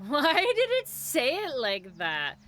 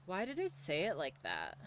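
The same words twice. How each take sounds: First: Loud, higher, slow and incredulous; amused exclamation. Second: Said in the usual way. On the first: Real, not acted. Streamer baffled by how the alert said it, amused exclamation. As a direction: stretch it out loudly with a laugh in it. Repeats the question, louder, amused.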